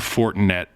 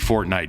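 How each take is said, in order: First: The name is said with three syllables, For-ti-net. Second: The name is said with two syllables, like Fortnite. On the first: The speaker calls it right. "It's the Fortinet Championship" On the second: The speaker calls it wrong. "I know that's not how you say it"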